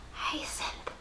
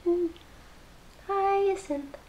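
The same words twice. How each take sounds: First: Breathy whispered name. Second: Hyacinth sung out high, falling; high sing-song. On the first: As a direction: whisper the word Hyacinth lovingly. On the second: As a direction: croon the word Hyacinth high and soft. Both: Pretend. Savouring the project's name.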